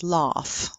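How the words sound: It is said in a British accent.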